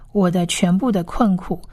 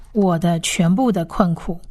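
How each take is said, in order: Both takes have the same delivery.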